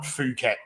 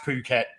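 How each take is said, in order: First: The word begins with an F sound. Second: The word begins with a P sound. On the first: The speaker calls it wrong. "not Phuket, which is how a lot of people in" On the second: The speaker calls it right. "it's it's pronounced Phuket"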